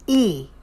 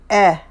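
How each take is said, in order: First: "e." pulled toward ee; tight ee vowel. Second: "eh," as an open e, a bit louder; open e vowel. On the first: Vlogger showing the Kiwi vowel, "e." narrowed toward ee. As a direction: close the vowel in "e.". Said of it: "they say". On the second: Vlogger showing South Africans' vowel, "eh," open. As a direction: give the plain "eh," sound. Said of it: "They don't say". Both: Shown as a demonstration.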